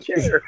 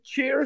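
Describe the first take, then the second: First: The vowel sounds like the one in 'chair'. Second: The vowel sounds like the one in 'cheer'. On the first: "some people say chair" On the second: "some people say cheer"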